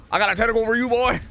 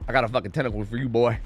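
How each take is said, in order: First: High, raised-voice threat; taunting yell. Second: Said in the usual way. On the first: Real, not acted. Streamer to hunted game opponent, taunting yell. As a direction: holler the taunt at your target. Repeats taunt, now yelled.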